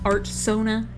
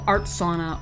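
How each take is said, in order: First: The second word sounds like sona. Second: The second word sounds like sauna. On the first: The speaker calls it right. "trying to correct myself to sona" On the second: The speaker calls it wrong. "people could get confused when I said sauna"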